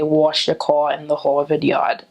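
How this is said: It is said with a New York accent.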